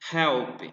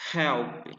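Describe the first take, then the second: The two takes are said the same way.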